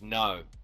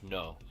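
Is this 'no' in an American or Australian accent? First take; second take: Australian; American. First: The vowel is made toward the front of the mouth. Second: The vowel is made far back in the mouth. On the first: "Australian accent is no. So you kind of front of the mouth" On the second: "in an American accent, no is at the back of the throat"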